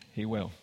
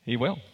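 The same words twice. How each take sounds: First: Softer echo. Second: Said in the usual way. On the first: Real, not acted.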